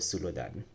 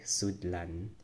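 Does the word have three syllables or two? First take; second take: three; two. First: The word is said in three syllables. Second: The word is said in two syllables. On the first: The speaker calls it wrong. "instead of sulodan" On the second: The speaker calls it right. "it's better to say sudlan"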